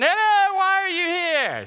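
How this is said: It is said in a put-on British accent. "they always have that British accent"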